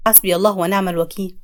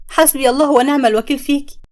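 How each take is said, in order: First: Low, solemn sheikh intoning it; a pious old man lamenting, low and grave; grave sheikh's prayer. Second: Raised, bitter curse at the traitor. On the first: Sheikh lamenting the spell to the family, low and solemn. Sheikh sighs over the magic. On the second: Samia curses her friend Zeinab, bitter and raised. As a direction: spit the prayer at her betrayer. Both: Acted.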